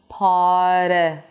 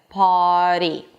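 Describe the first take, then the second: First: The R is rushed straight into the flap. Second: The R is rushed straight into the flap.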